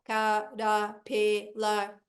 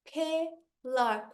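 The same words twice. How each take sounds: First: "caterpillar" like a robot, syllable by syllable; slow, lower robotic monotone on "caterpillar". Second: CATERPILLAR slowly split into four beats; "caterpillar" drawn out, one vowel at a time; syllable by syllable. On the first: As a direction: chop CATERPILLAR into four mechanical beats. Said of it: "se você falar igual robô". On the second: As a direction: drop the jaw on each syllable of "caterpillar". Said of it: "quantas vezes o meu queixo cai". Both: Shown as a demonstration.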